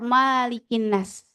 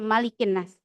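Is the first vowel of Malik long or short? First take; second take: long; short. First: The first vowel of Malik is drawn out long. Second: The first vowel of Malik is kept short. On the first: This is a rare reading. "ada yang membaca Malikin nas. Tapi ini bacaan yang jarang" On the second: This is the usual reading of Hafs. "riwayat Hafaz bacanya Malikin nas, tidak dipanjangkan"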